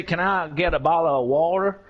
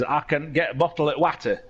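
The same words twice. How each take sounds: First: Casual British accent with dropped t's in "bottle of water"; relaxed British accent, t's swallowed. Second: West Yorkshire accent, short flat "a" in "water"; Yorkshire accent, "water" said as spelt. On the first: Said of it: "I'm going to put on my British accent". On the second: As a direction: say it as a West Yorkshire local would. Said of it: "I'm gonna do it in Yorkshire accent". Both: Shown as a demonstration.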